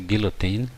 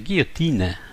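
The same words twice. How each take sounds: First: It is said with an English pronunciation. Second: It is said with a French pronunciation. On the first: "in English we of course say guillotine" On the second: "French say guillotine, guillotine. So the n gets a little stressed"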